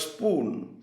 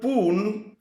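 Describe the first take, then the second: First: The initial s sound is pronounced. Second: The initial s sound is left out. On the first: "for the word spoon" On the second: "letters such as P, S ... are omitted"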